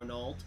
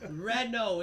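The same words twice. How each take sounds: First: The name is pronounced letter by letter as spelled. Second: The name is pronounced differently from its spelling. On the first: The speaker calls it wrong. "he would go Renault" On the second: The speaker calls it right. "Pronounce it right"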